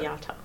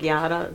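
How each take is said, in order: First: The middle consonant is a clear T sound. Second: The middle consonant is a quick D sound. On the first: The speaker calls it right. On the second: The speaker calls it wrong.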